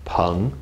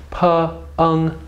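First: "peng" as one syllable, rising from low; second tone. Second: "Peng" split into "puh" and "ung", high and level; slow, segmented "puh... ung" for "Peng"; sounded out. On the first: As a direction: blend "peng" together and let it climb. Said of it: "Second tone". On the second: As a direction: break "Peng" into two high, held sounds. Teacher sounds out syllable in parts. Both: Shown as a demonstration.

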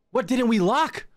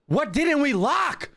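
First: High, exasperated question, rising at the end; frantic question. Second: Very high, slow, stretched-out question; more desperate wail. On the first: Player trapped after locking everything, high frantic question. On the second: Player desperate to find what is unlocked, high drawn-out wail. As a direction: wail it slowly, pitched right up. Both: Real, not acted.

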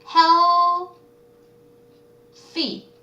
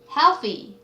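First: "Healthy" split wide, "heal" held high and loud, then "thy"; syllable by syllable. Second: Said in the usual way. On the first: Shown as a demonstration. Teacher breaking a word up for students, "healthy" syllable by syllable. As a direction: sound out "healthy" in two far-apart pieces. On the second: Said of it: "네, healthy".

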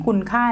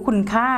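Both takes have the same delivery.

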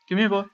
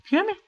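First: Put-on "Come here, boy." higher and louder, calling a dog; coaxing pet call, higher. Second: Said in the usual way. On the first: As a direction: call the pet sweetly, pitched up.

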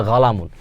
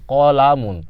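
First: গালামুন with a hard g at the start; Najdi dialect galamun. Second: কলামুন with a back-of-throat q at the start; standard Arabic qalamun. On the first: Teacher gives students the dialect word, hard g for q. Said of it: "কিন্তু এটাকে বলে". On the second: Teacher gives students the standard word, classical q. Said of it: "কলামুন শব্দের অর্থ কলম". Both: Shown as a demonstration.

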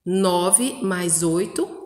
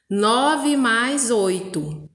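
First: Said in the usual way. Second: Nove mais oito drawn out slowly; teacher dictating the sum slowly; slow dictation. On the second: Shown as a demonstration. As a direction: read the sum out word by word.

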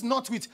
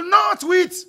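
First: Said in the usual way. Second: High, very loud mimicked prohibition; exaggerated shouted rule; mock insistent shout. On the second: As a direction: shout it high, as others lay down the law. Mimics what they will tell you.

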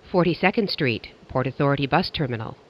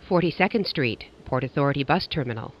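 The two takes are said the same way.

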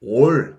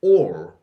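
First: "all" as a drawn-out Korean 올; wrong pronunciation. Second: "All" pushed out loud and low from the first vowel; stressed vowel onset. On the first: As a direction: say "all" Koreanized as 올, no doubled vowel onset. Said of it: "아니고요". (한국어 '올'처럼 늘인 잘못된 all) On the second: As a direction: open "All" with a hard, doubled 오. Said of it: "이런 느낌으로 발음해주세요". (쌍이응 느낌으로 앞을 세게 누른 All) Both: Shown as a demonstration.

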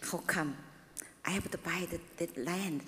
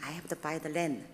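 First: Hushed, breathy self-question; whispered inner question. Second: Said in the usual way. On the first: Retold or imitated. Preacher recalls doubting the land purchase, whispered. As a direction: whisper it as if asking herself.

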